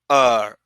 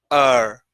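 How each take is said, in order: Both takes have the same delivery.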